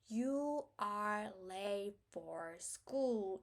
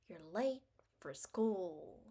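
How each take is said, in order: First: Every word is stretched out evenly slowly. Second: Short words are rushed; only stressed words are stretched.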